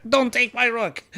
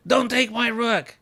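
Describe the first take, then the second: First: Pleading yelp. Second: Laughing plea. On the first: Pleading with opponent over rook. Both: Real, not acted.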